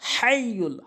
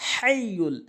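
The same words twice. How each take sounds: First: The h is deep, from the middle throat. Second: The h is deep, from the middle throat.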